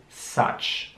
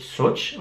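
First: "such" with an open A, "satch". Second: "such" with an OO vowel, like "sootch"; wrong U vowel. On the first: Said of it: "das U wie ein A". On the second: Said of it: "Also nicht such oder so". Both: Shown as a demonstration.

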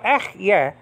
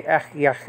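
First: Ehyeh with the final H left silent. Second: Ehyeh closed with an audible throaty H; final H pronounced. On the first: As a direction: say Ehyeh ending on an open vowel, no breath after it. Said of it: "which is silent". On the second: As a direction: sound the last H of Ehyeh like the first. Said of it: "sometimes we pronounce that". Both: Shown as a demonstration.

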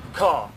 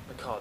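First: A sharp gasp, then a lifted "The car!"; suddenly spotting the car; thrilled "car!" after a gasp; gasp of discovery. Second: Softer echo of "car"; quiet repeat. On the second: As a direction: murmur it back to yourself. Repeats it to himself. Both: Real, not acted.

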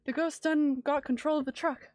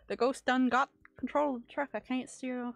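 First: Loud, frantic trucker voice; panicked trucker shout. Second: Loud, bad Canadian accent trucker. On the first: Acted. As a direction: yell it like the truck's out of control. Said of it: "is this the Canadian speech?". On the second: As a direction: shout it in a hammy Canadian accent. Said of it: "that's not even a Canadian accent".

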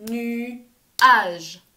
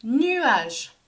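First: "Nuage" in two separate beats, Nu, pause, age; "Nuage" cut cleanly after the first syllable; split into syllables. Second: Said in the usual way. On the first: Shown as a demonstration. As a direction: clap out "Nuage", louder on the second beat. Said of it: "On tape dans les mains". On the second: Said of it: "On va découper le mot ensemble".

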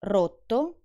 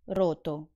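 First: Rotto with a long tt; doubled rotto; double tt held. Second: Roto with a short t; quick t in roto; undoubled roto; single t. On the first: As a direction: hold the tt in Rotto. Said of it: "when I pronounce the double consonant". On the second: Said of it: "and when I don't". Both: Shown as a demonstration.

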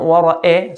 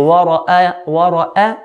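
First: وَرَأَى ending in e, wara-e; blurred fatha, wrongly. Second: وَرَأَى ending in a clear open a; clear fatha. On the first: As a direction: slide the last a of وَرَأَى to eh. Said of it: "and not". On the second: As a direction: open the last a of وَرَأَى fully. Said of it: "Clear a". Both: Shown as a demonstration.

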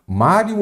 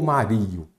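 First: Mário stressed on the first syllable, MÁ-rio. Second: Mario wrongly stressed as ma-RÍ-o. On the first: Teacher shows students the correct word, Mário with stress on MÁ. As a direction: hit the MÁ of Mário, let rio fall away. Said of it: "muito importante você se lembrar do mestre Mário". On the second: Teacher offers students the wrong option, Mario stressed ma-RÍ-o. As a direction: shift the weight of Mario onto a long RI. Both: Shown as a demonstration.

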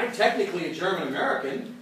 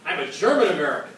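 First: Said in the usual way. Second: German punched louder, rest rushed; stress on German. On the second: Shown as a demonstration. Teacher to class, leaning hard on "German". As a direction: lean hard on "German" in "I'm a German American". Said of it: "you emphasize the first word".

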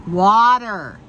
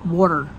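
First: "Water" with a wide, drawn-out open "ah"; contrasting pronunciation. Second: Said in the usual way. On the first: Shown as a demonstration. Showing the other way of speaking, "Water" as a long "waah-ter". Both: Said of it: "Why the heck do I speak the way I do?".

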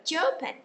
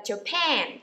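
First: "Japan" wrongly said JA-pan; "Japan" with a short, weak ending; stress on first syllable. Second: "Japan" said ja-PAN; "Japan" with a long, falling, stressed ending; stress on second syllable. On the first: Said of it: "chứ chúng ta không đọc là Japan". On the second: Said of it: "chúng ta sẽ nhấn vần thứ hai". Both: Shown as a demonstration.

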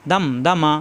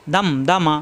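No difference in how they are said.

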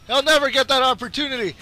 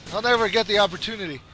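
First: Higher-pitched insistence; insistent. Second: Said in the usual way. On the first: Real, not acted. Gamer vowing to stop Dragon Faust, insistent and high. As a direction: push the repeat up in pitch.

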